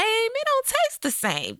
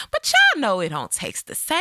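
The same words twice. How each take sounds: First: Sassy high emphasis. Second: Said in the usual way. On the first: Pretend. Repeats the line for effect.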